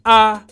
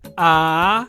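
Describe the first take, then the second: First: The pitch stays flat in the middle. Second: The pitch falls and then rises. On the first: "the mid tone, when your the pitch of your voice remains flat" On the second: "the rising tone is sa"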